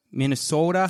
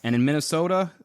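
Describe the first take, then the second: First: Playful mock Minnesotan, long O; Minnesota accent. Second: Said in the usual way. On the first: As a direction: slip into a fake Minnesota accent. Returns to the accent joke.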